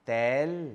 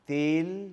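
First: The vowel is lower and more open, like 'æ'. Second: The vowel is mid-high, like 'e'. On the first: "জিহ্বাটাকে আরেকটু নিচে নামান, উচ্চারিত হবে এ।" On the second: "জিহ্বাটাকে কয়েক degree নিচে নামান, উচ্চারিত হবে এ।"

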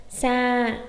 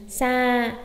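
No difference in how they are said.

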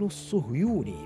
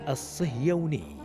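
First: The s is followed by u, y by u. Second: The s is followed by i, y by a. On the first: The speaker calls it wrong. "بضم الصاد والياء" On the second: The speaker calls it right. "بكسر الصاد وفتح الياء"

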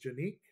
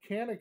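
First: The name is pronounced the Turkish way. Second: The name is pronounced the English way. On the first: The speaker calls it right. "It is a Turkish firearm, so the proper way to say it is Canik" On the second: The speaker calls it wrong. "Canik is not the proper way to say it"

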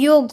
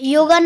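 First: The word ends on the g sound. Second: The word ends with an added 'a' vowel. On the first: The speaker calls it right. "યોગ હોય" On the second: The speaker calls it wrong. "યોગા ના હોય"

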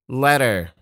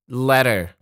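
Both takes have the same delivery.

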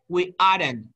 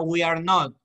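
First: Are and not merge into one syllable. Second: Each word is said separately and fully. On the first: The speaker calls it right. "sino we aren't eating" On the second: The speaker calls it wrong. "No diga we are not"

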